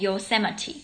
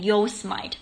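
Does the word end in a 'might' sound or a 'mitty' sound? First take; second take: mitty; might. First: The word ends with a 'mitty' sound. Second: The word ends with a 'might' sound. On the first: The speaker calls it right. "它是念Yosemite" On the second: The speaker calls it wrong. "你会觉得它是念Yosemite"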